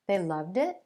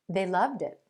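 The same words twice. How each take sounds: First: The pitch rises at the end. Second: The pitch falls at the end. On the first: It is a question. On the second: It is a statement of fact.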